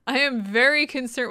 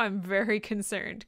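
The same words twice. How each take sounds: First: Louder, leaning hard on "very"; genuinely concerned. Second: Said in the usual way. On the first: Shown as a demonstration. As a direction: punch "very" like you really mean it. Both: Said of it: "genuinely concerned".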